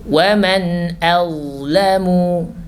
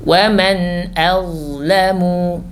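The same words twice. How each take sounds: No difference in how they are said.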